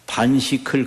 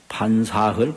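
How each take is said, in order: First: The middle syllable is pronounced 'sik'. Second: The middle syllable is pronounced 'sa'. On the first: The character is read as the word for eating. The speaker calls it wrong. "그래 읽으면 안 되는 거예요" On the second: The character is read as the word for food. The speaker calls it right. "꼭 그렇게 읽으셔야 돼요"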